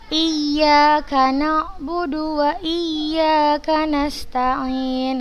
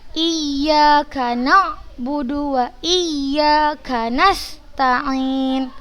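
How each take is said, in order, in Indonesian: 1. Tekanan jatuh pada huruf y ganda di iyyaka. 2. Tekanan jatuh pada kata na'budu. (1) "Nabernya hanya di ya-nya yang bertasydid" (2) "bukan di situ nabernya"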